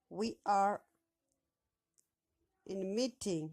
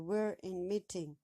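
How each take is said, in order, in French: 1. "We are" se prononce en deux mots pleins. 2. "We are" se réduit en une seule syllabe.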